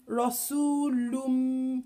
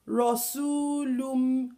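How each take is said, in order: The two takes are said the same way.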